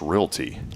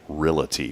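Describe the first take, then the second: First: It has two syllables, with no extra sound. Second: It has three syllables, with an extra i sound. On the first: The speaker calls it right. "but it's realty" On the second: The speaker calls it wrong. "I always hear people say realty ... they put the I in there"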